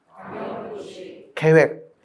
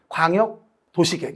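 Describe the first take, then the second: First: There is a clear pause after 광역도시. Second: There is no clear pause after 광역도시. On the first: It is a separate plan for the wider city area. The speaker calls it right. "이렇게 하세요" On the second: It sounds like a kind of ordinary city plan. The speaker calls it wrong. "이러면 안 돼"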